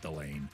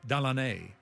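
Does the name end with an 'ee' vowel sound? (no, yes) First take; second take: no; yes. First: The name ends without any 'ee' sound. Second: The name ends with an added 'ee' sound. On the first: This is how the player himself says it. "but I think he goes by just Delane" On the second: This is how a local from New Orleans says it. "I heard it pronounced by somebody from New Orleans, who Delaney, that's my preferred pronunciation"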